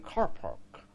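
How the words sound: The r sounds are clearly pronounced after the vowels. This is how people in Arizona say it. "They'll pronounce the r"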